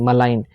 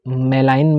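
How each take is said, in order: First: मलाइन with a short, weak म and a clear लाइन; correct pronunciation. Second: मेलाइन with a full, long मे; wrong pronunciation. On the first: Teacher giving students the right मलाइन, short म. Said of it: "आई के ऊपर बार आ रहा है, इसे लाइन". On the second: Teacher showing students the wrong मेलाइन, long मे. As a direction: say मेलाइन as the wrong version, मे drawn out. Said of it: "मैं नहीं बोल रहा हूँ इसे". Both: Shown as a demonstration.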